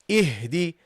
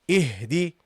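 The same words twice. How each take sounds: Both takes have the same delivery.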